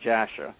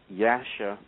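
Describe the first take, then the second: First: The name begins with a J sound. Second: The name begins with a Y sound.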